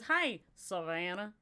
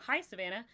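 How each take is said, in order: First: It is said in a deep Southern accent. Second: It is said in a neutral accent.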